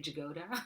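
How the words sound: The name is said with an American pronunciation. "but I guess Americans say Jagoda"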